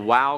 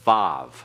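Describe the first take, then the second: First: The name ends in a vowel sound. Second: The name begins and ends with v. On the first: This is the older, classical name of the letter. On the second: This is the modern Hebrew name of the letter.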